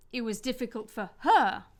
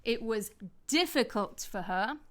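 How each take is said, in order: First: "her" hit louder with a falling tone; stress on HER. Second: "difficult" carries the emphasis, "for her" falls away; stress on DIFFICULT. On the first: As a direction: save the punch for the final "her". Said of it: "I could stress a pronoun". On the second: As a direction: lean on the word "difficult". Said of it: "I could stress the adjective". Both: Shown as a demonstration.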